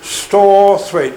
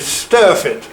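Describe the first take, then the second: First: The name is said in full, as Storthwaite. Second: The name is said short, as Sturfit.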